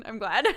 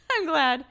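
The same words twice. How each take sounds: First: Said in the usual way. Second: Higher and louder, through a laugh; real giggly relief; amused laughter. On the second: Real, not acted. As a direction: say it laughing, pitched up. Repeats it while laughing.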